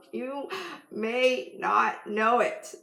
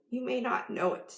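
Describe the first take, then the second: First: "You ... may not know it" drawn out with a pause after You; slow right down, weighing each word of "may not know it"; slow, deliberate emphasis. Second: Said in the usual way. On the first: Real, not acted. Slows down repeating for emphasis.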